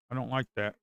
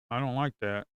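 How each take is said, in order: Both takes have the same delivery.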